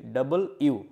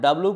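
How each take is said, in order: First: The letter name is said fully as 'double you'. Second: The letter name is shortened to 'dablu'. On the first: The speaker calls it right. "সঠিক উচ্চারণটা হচ্ছে কি ডাবল ইউ" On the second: The speaker calls it wrong. "এটা আমরা ডাব্লু পড়ি"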